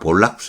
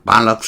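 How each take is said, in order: First: The first vowel sounds like 'oh'. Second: The first vowel sounds like 'ah'. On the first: "아까 볼락스 그랬나요?" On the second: "발럭스 이렇게 발음해야 되군요"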